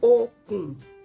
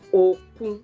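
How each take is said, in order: First: The first syllable is level, the second low. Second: The first syllable is low, the second level. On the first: It means rope. "re, do" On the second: It means sea. "do, re. Do, you put your voice down. Re is flat"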